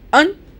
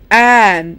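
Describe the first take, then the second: First: The word has a reduced, weak vowel. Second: The word has a full, strong vowel. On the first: "weak form" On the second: "strong forms"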